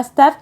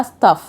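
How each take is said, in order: First: "staff" with a short flat a, like stæf; American staff. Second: "staff" with a long open ah, like stahf; British staff. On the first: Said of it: "الأمريكان بيقولوها staff". (نطق أمريكي لكلمة "staff" بفتحة قصيرة زي stæf) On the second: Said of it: "وبريتش بيقولوها staff". (نطق بريطاني لكلمة "staff" بألف طويلة زي stɑːf) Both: Shown as a demonstration.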